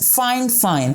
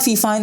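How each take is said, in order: First: The name is said as two words, 'fine fine'. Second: The name is said as one word, 'fifine'. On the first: The speaker calls it right. "it's Fine Fine" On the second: The speaker calls it wrong. "it's not Fifine"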